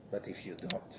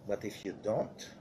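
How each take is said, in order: First: A breathy, ominous whisper; whispered warning. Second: Said in the usual way. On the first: Acted. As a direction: drop the voice to a secret hush.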